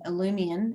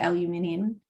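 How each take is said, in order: First: It is said with an American pronunciation. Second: It is said with a non-American pronunciation. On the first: This is how Americans say it. "Is that how Americans pronounce it?" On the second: This is how the speaker's own community says it. "we say aluminium"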